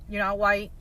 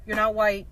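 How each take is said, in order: Both takes have the same delivery.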